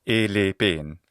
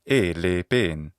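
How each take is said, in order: The two takes are said the same way.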